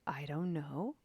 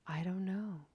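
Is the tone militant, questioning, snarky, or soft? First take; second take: questioning; soft. First: It is said inquiringly, rising like a question. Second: It is said in a soft, gentle tone. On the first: "Maybe there's a little bit of inquiry, question mark on the end" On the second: "Is there some softness to it?"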